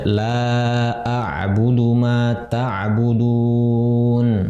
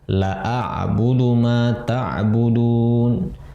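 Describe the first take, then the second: First: The vowel in the first word is long. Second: The vowel in the first word is short. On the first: I will not worship what you worship. The speaker calls it right. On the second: The meaning of the verse changes. The speaker calls it wrong.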